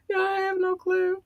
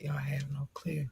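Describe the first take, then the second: First: High squeal. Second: Whispering. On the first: Repeated high. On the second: Whispered aside. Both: Real, not acted.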